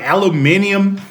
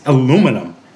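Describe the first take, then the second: First: The word is said with five syllables. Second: The word is said with four syllables. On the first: This is how British speakers say it. The speaker calls it wrong. "Why they add an R to words that there's no R? Like say like aluminium" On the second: This is how the speaker thinks it should be said. The speaker calls it right. "It's not spelled aluminium. It's aluminum"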